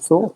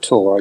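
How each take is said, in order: First: The word begins with a th sound. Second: The word begins with a plain t sound. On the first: This is how the name in the title is meant. The speaker calls it right. "is it Thor?" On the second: This echoes how the other person said it. The speaker calls it wrong. "You just said Tor"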